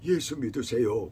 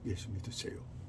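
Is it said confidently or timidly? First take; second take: confidently; timidly. First: It is said boldly and confidently. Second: It is said in a faint, timid voice.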